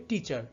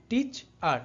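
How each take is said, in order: First: Said in the usual way. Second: "টিচ আর" as two parts with a pause; split into syllables. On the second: Shown as a demonstration. Teacher separating the suffix, "টিচ", pause, "আর". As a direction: set "আর" apart after "টিচ". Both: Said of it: "এখানে আর শব্দের শেষে বসেছে".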